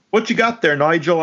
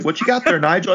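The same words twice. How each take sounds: First: Mock British voice pitched high; hammy imitation of a British thug; British accent. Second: High mock British voice; hammy British thug line. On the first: Podcaster mimicking a mutant's line in British. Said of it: "they're British?". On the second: Podcaster repeating the Nigel line in British. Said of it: "I was like".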